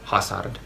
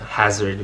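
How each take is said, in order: First: The middle consonant is a hissing S. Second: The middle consonant is a buzzing Z.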